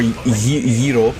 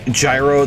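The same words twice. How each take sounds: First: It is pronounced in a Greek way. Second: It is pronounced in an anglicized way.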